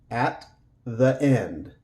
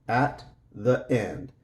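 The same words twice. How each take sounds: Both takes have the same delivery.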